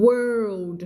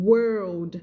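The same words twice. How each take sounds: The two takes are said the same way.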